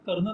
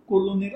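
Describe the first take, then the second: First: It is said as two syllables, ker-nel. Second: It is said as three syllables, ko-lo-ner. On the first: The speaker calls it right. "कर्नल असा करायचा" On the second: The speaker calls it wrong. "मी या शब्दाचा उच्चार कोलोनेर असाच करत राहणार"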